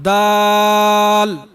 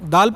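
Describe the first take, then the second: First: The vowel is slightly drawn out. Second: The vowel is short, not drawn out. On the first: The speaker calls it right. "दाल को मामूली सा खींच कर पढ़ना चाहिए" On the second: The speaker calls it wrong. "इस तरह बिल्कुल ही नहीं पढ़ना चाहिए"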